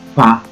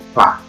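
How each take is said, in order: No difference in how they are said.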